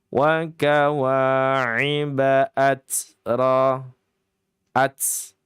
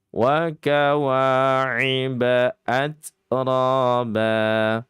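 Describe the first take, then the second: First: The t sound is exaggerated and prolonged. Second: The t sound is light and brief. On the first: The speaker calls it wrong. "ini terlalu berlebihan ini ya" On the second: The speaker calls it right. "At biasa saja, tipis saja"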